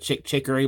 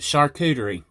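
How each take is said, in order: First: The word sounds like chick chicory. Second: The word sounds like shar-koo-tuh-ree. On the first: The speaker calls it wrong. "They tease me because I call it a chick chicory board" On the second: The speaker calls it right. "it's charcuterie. That's what you call it"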